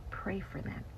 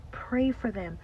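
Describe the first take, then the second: First: Whispered plea. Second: Insistent call to pray; firm repeat. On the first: Urging prayer, hushed then repeated. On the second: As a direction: press the word Pray. Urging prayer, repeated firmly. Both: Real, not acted.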